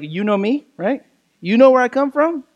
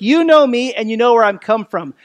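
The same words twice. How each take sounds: First: A hint of Italian wise-guy questioning; light Italian-style questioning. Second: Said in the usual way. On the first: Shown as a demonstration. Preacher reading Jesus's words as a question, lightly Italian. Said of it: "maybe there's a little Italian in there". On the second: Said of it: "what Jesus starts with".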